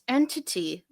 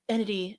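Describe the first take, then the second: First: The T sounds are clearly pronounced. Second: The T sounds are softened or dropped. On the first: The speaker calls it right. "pronounce your T's" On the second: The speaker calls it wrong. "they're just like"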